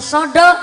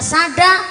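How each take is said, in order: First: It is said with a rounded o vowel. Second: It is said with an open a vowel.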